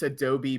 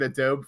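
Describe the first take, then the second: First: "Adobe" in three syllables, uh-DOH-bee; correct pronunciation. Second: "Adobe" cut to two syllables, uh-DOBE; habitual mispronunciation. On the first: Host showing they know the software's name, correct pronunciation. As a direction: sound the final EE of "Adobe". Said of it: "I know it's Adobe Premiere". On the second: Host confessing a long-held habit, mispronunciation. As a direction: say "Adobe" with a silent final e. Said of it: "I was calling it Adobe for so long". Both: Shown as a demonstration.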